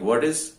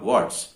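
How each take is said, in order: First: Both words are said fully and separately. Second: The words are joined into one short syllable.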